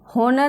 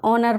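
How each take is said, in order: First: The word begins with an audible H sound. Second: The word begins directly with a vowel sound. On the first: The speaker calls it wrong. "होनर नहीं पढ़ेंगे इसको" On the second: The speaker calls it right. "ऑनर पढ़ेंगे, एच silent है"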